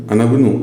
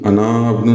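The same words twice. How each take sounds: First: अनबनु run together, alif silent, short a into b; joined reading. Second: अनाबनु with the long a of अना fully sounded before the b; deliberately wrong अनाबनु with a full vowel; wrong long reading. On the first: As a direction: say अनबनु as one word, no vowel before b. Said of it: "इसलिए अनबनु". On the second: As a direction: say अनाबनु keeping the alif of इब्नु, not dropping it. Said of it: "अनाबनु नहीं". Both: Shown as a demonstration.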